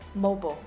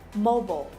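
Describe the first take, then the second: First: The word is said with an American pronunciation. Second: The same.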